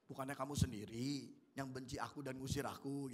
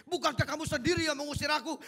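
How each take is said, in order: First: Soft, low, calm reading of the line; calm, not angry. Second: Higher and louder, angry accusing demo; angry reading. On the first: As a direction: read it gently without anger. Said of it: "Kita harus tahu cara bacanya". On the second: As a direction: fire the line back in anger. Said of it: "kalau kira-kira Yefta marah, mesti ngomongnya gini". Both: Shown as a demonstration.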